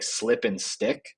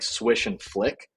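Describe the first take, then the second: First: "slip and stick" said slowly, matching the rhythm of swish and flick; "slip and stick" as the misheard version, spoken slowly; slow misheard echo. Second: "swish and flick" said slowly, each word drawn out; "swish and flick" as the original line, spoken slowly; slow, deliberate spell phrase. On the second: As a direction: sound out "swish and flick" slowly so the sounds stand out. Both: Shown as a demonstration. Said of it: "And I heard it as".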